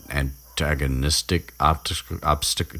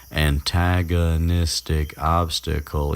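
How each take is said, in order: First: Tripping over "antagonistic" and "obstacle", restarting; stumbling. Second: "antagonistic obstacle" slowly, every syllable separate; careful enunciation. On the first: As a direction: fumble "antagonistic optic-, obstacle" in broken pieces. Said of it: "Jesus Christ". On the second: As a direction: carefully get through "antagonistic obstacle" after stumbling. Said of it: "those are the words". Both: Real, not acted.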